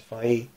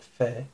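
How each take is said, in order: First: The ending is a then i, separately. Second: The ending is a single e vowel. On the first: The speaker calls it right. "this is fai" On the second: The speaker calls it wrong. "This is not fe"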